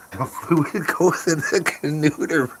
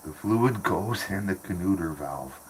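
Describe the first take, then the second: First: High, slow, goofy repeat through laughter; laughing mock voice. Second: Said in the usual way. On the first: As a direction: parrot the phrase in a silly high voice, cracking up. Repeating a garbled phrase, laughing.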